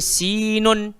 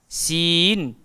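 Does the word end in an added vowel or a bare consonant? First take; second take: added vowel; bare consonant. First: The final n carries an added vowel sound. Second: The word ends on a bare n consonant. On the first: The speaker calls it wrong. "Kita tak baca sinun" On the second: The speaker calls it right. "tapi kita baca sin"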